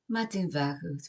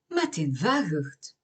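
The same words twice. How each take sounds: First: It sounds flat, with no real emphasis. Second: It sounds warm, with emphasis on ma.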